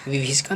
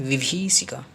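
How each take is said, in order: First: विभीषिका with a short "bhi"; wrong short middle I. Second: विभीषिका with drawn-out "bhee"; correct long middle I. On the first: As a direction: say विभीषिका with quick second vowel. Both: Shown as a demonstration. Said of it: "विभीषिका नहीं".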